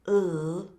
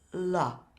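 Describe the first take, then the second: First: The l sound is held with no vowel. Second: The l sound ends with an added uh vowel. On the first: The speaker calls it right. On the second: The speaker calls it wrong.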